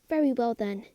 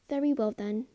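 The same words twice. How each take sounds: First: The line is delivered in an angry tone. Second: The line is delivered in a calm tone.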